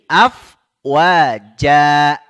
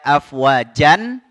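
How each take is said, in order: First: The word ends on a long a vowel. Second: The word ends with an n sound. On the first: "Cukup dua harokat"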